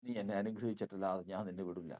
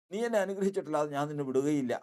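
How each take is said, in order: First: Low, softer pleading vow; soft plea. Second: Insistent vow. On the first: Jacob quietly refuses to let the angel go, pleading. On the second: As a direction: raise it into a determined cry. Jacob repeats the vow, stronger. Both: Acted.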